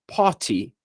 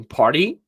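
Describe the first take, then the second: First: British "party", crisp t, no r; sotaque britânico. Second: American "party" with a tapped t; sotaque americano. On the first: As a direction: say "party" as "pah-tee", British style. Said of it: "no inglês britânico". ("party" com sotaque britânico) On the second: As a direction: say "party" like "pardy", American style. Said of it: "Então você tem party". ("party" com sotaque americano) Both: Shown as a demonstration.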